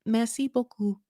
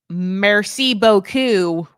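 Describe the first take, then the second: First: Higher, tentative go at a French accent; awkward French attempt. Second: Put-on drawn-out French in a thick American accent; loud, slow American-accented French with hard R's; hardest American accent. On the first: Shown as a demonstration. Californian who can't do French tries it, awkward French accent. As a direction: try French pronunciation, soft-R "merci", quicker. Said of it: "my mouth around French". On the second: American learner murdering French for comic relief, thick American accent. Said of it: "like, the hardest American accent".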